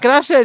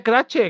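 First: Crasher said the English way, with a clear sh; wrong pronunciation. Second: Crache said the Spanish way, ending che; right pronunciation. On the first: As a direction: say Crasher as in English, raised and a bit louder. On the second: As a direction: say Crache with a ch sound, kra-che. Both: Shown as a demonstration. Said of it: "dice Crache".

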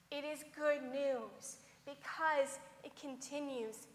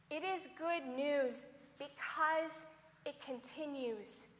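No difference in how they are said.

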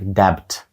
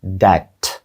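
First: "debt" read with the B sounded, "debbt"; spelled-out debt. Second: "Debt" with a silent B and a drawn-out final T; correct debt. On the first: Teacher showing students the spelling trap, B sounded. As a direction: pronounce the B in "debt" as it is written. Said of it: "мало б читатися як debt". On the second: Teacher modelling the word for students, long final T. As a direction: lean on the lengthened T at the end of "Debt". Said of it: "Таке подовжене в кінці Т". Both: Shown as a demonstration.

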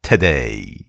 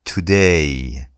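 First: "today." with the first syllable cut to a quick "t'"; reduced t' in today. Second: "today." with a full, clear "tu" before "day". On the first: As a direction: swallow the "to" in "today." into a short "t'". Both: Shown as a demonstration.

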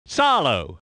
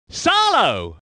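First: Said in the usual way. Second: Driver's surname called out with a lift; exclaimed name. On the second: Acted. Commentator naming the driver Salo, exclaimed call. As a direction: call the name out with a falling finish.

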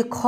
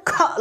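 First: ख drawn out long as a full kha with its vowel; full-vowel ख, the mistake; full kha, the wrong way. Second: ख cut short and jerked out with no vowel after it; ख said short and abrupt; clipped half kha. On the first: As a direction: say ख full and stretched, as you should not. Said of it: "ये ख नहीं लिखा है". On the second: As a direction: snap out ख as a half letter, sudden and short. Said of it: "हमको झटके से बोलना है". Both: Shown as a demonstration.

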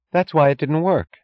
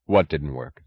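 First: Higher-pitched wife, emphatic; bitter realization. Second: Low, puzzled question; husband at a loss, understated; blank bewilderment. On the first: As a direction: land the discovery sharply. Wife's bitter realization, set against his question. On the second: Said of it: "He asked in blank bewilderment". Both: A narrator's reading.

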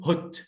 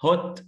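First: British "hot" with a short rounded o; British accent. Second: American "hot" with an open ah; American accent. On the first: Teacher contrasting two accents for students, British accent. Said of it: "في البريتش بقول". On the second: Teacher contrasting two accents for students, American accent. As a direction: say "hot" like "haht", American style. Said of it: "في الأمريكان أكسنت بقول". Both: Shown as a demonstration.

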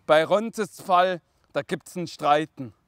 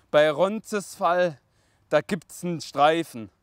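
First: "Streiten" said with a t in the middle; slow verse line ending on "Streiten"; corrected word. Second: "Streifen" said with an f in place of t; slow verse line ending on "Streifen"; misread word. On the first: Correcting the poem misreading, "Streiten" with a clear t. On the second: Reading the poem to father, "Streifen" misread with f. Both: Real, not acted.

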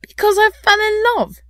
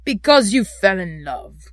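First: High, loud exclamation; impassioned, high-pitched answer; ardent. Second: Loud, scornful growl; grumpy, mocking repeat. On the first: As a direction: declare it with youthful fervour. Nephew answers uncle ardently. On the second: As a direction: echo it back with contempt. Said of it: "growled Scrooge". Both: A narrator's reading.

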